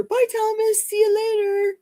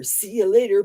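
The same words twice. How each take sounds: First: Much higher, lilting farewell; bright high-pitched sing-song "Bye, Thomas. See you later."; sing-song goodbye. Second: Said in the usual way. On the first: Real, not acted. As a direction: call the goodbye up high and cheery.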